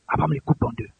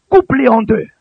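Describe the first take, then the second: First: Low, soft narration; hushed telling. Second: Loud, forceful pulpit command. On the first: Real, not acted. Preacher narrating Abraham's obedience, low and hushed. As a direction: drop right down to tell it. Narrates the act after command. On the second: Retold or imitated. God ordering Abraham to cut animals, loud command.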